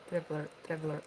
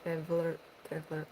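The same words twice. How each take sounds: The two takes are said the same way.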